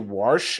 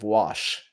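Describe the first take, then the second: First: The word is said with an added R sound. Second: The word is said without any R sound. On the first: This is how people say it in the South. "we say wash ... down here in the South" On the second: This is the standard form used elsewhere. "instead of wash"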